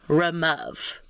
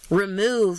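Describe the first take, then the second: First: The stressed vowel sounds like the one in love. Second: The stressed vowel sounds like the one in move. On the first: This is how the word was said in Shakespeare's time. "in Shakespearean English, they did. Remove was pronounced remove" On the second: This is how the word is said today. "They certainly don't sound like they rhyme"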